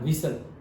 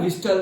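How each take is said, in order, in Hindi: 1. बीच का t silent है। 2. बीच का t बोला जाता है। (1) "विसल वर्ड होता था ना" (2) "अगर गलती से भी बोल दिया ना विस्टल, तो डंडा पड़ता था"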